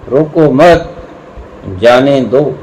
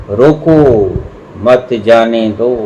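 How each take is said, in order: First: "रोको मत" together, pause, then "जाने दो"; pause after मत. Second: "रोको", pause, then "मत जाने दो" as one phrase; pause after रोको. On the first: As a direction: join "मत" to "रोको" and break before "जाने दो". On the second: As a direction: break right after "रोको" and join "मत" to "जाने दो". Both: Shown as a demonstration. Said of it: "ठहराव का फर्क पड़ जाए तो अर्थ विपरीत भी हो जाया".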